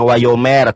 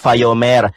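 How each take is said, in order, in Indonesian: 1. Kata ini diawali dengan bunyi 'w'. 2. Kata ini diawali dengan bunyi 'v'. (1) "Kalau bacaannya wau" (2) "kalau pakai fa"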